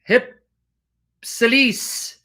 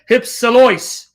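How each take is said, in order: First: The word ends with a 'lis' sound. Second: The word ends with a 'lois' sound. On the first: This is how the other side pronounces it. "it's not pronounced Louis or Lois, it's Lis" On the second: This is the Erasmian pronunciation. "the Erasmian James Whiteway is en hypsilois"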